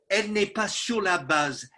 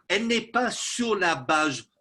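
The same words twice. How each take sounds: The two takes are said the same way.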